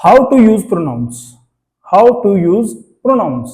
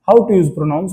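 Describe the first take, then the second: First: Slow, drawn-out heading for the board; teacher dictating the lesson title; slow topic heading. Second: Said in the usual way. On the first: Shown as a demonstration. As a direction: announce the topic slowly, word by word. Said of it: "announcing the new topic". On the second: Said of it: "repeating the topic in passing".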